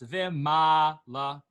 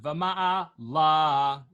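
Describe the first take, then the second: First: The stress falls on the 'ma' syllable. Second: The stress falls away from the 'ma' syllable. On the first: The speaker calls it right. "because the note is on the mem" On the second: The speaker calls it wrong. "it's not vama'ala"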